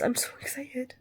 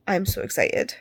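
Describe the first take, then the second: First: Excited whisper. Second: Said in the usual way. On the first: Real, not acted. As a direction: whisper it with glee. Whispered then repeated aloud.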